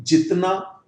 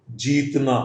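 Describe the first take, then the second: First: जितना with a short i; short-vowel contrast example; short i demo. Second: जीतना with a long drawn ee; long-vowel contrast example; long ee demo. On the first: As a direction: keep the first vowel of जितना brief. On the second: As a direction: hold the ee in जीतना. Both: Shown as a demonstration. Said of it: "तो यहां पर अंतर है".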